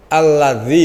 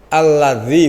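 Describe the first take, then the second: First: The middle consonant is made with tongue slightly out. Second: The same.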